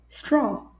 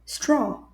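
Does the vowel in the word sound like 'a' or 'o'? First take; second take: o; o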